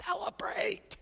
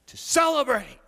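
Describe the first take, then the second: First: "Celebrate" barely voiced, hushed and high; whispered word. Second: "celebrate" rung out loud and high, falling at the end; joyful proclamation. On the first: Jesus pointedly urging the grumbling Pharisees, whispered. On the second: Real, not acted. Preacher proclaiming the feast to the congregation, loud and high.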